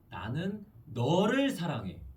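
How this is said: The stress is on 너를.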